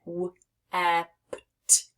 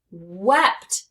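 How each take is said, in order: First: W-e-p-t very slowly, each sound apart. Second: Said in the usual way. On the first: Shown as a demonstration. Teacher swapping final sounds, w-e-p-t sounded out slowly. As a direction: break w-e-p-t into separate sounds, the end ones unvoiced. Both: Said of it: "We get w-e-p-t".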